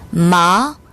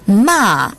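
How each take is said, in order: First: The pitch rises from mid to high. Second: The pitch falls sharply from high. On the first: It means numb. "이성" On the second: It means to scold. "마지막 사성으로 발음하면"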